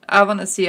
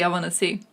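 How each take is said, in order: First: Louder, insistent I wanna see. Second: Said in the usual way. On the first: Real, not acted.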